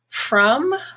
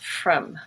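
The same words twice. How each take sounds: First: The vowel is full and clearly pronounced. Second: The vowel is reduced to a quick schwa.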